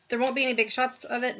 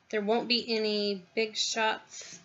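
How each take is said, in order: First: Said in the usual way. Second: Talking while chewing lunch; slow words round a mouthful of food; mouth full. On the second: Real, not acted. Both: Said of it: "Sorry, that's my lunch".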